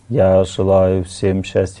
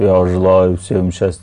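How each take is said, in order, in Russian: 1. Голос звучит мягко и нежно. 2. Голос звучит жёстко и напряжённо. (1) "Мягко" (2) "Там жестко"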